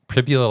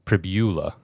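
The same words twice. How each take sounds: First: The stress is on the first syllable. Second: The stress is on the second syllable. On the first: "I thought Pribula like fibula" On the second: "it could be emphasis on the U"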